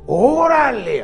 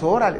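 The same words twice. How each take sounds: First: It is said with lively, emphatic expression. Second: It is said plainly, without expression.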